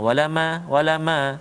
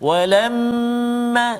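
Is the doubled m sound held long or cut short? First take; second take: short; long. First: The m is rushed through quickly and short. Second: The doubled m is held with nasal hum. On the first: The speaker calls it wrong. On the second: The speaker calls it right.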